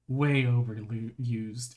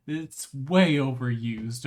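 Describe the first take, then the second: First: "way" drawn out very slowly and weighted; heavy stress on way. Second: "way" stretched and stressed, slow. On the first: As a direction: drag out "way" heavily in "Way overused". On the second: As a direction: lean on "way" in "It's way overused". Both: Shown as a demonstration.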